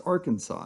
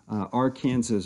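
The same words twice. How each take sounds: First: The word is pronounced the way Arkansans say it. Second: The word is pronounced the way Kansans say it. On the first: The speaker calls it right. "It's Arkansas, you crazy people" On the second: The speaker calls it wrong. "If you are from Kansas, you'll refer to the Arkansas River Basin"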